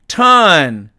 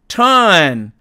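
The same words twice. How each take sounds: Both takes have the same delivery.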